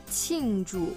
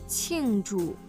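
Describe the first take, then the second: Both takes have the same delivery.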